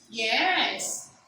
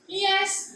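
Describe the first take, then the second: First: The pitch rises and then falls. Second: The pitch stays level on the word. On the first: "Under the right fourth tone, it becomes yes" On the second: "for the level tone is yes"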